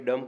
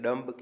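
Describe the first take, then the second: First: "ડમ" ending on the m, no b sound; "ડમ" closed on a plain m; silent B. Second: "ડમ્બ" with a b voiced after the m; "ડમ્બ" ending in an audible mb; sounded B. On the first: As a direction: say "ડમ" with the final B left silent. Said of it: "ડમ્બ કહેવાતું નથી, બી silent રહે છે". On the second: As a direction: say "ડમ્બ" with the final B pronounced. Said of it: "કહેવાતું નથી". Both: Shown as a demonstration.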